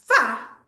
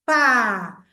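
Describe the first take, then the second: First: The sounds are joined quickly. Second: The sounds are stretched out slowly. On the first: "no final ela consegue fazer rapidamente" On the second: "prolongar no caminho até chegar na segunda letra"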